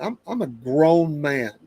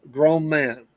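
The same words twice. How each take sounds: First: "grown man" spelled out slowly; slow it down and land "grown man"; "I'm a grown man" said slowly, each word weighted; slow emphatic. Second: Said in the usual way. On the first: Shown as a demonstration.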